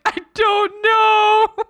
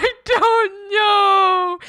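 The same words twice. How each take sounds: First: High, slow and loud, breaking into laughter; real laugh-cry, drawn out. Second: High, very slow and loud, sobbing with laughter; real laugh-sob, stretched out; laugh-crying harder. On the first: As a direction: say it helplessly through laughter. Laugh-crying, stranded. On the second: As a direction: let the laugh and cry take over. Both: Real, not acted.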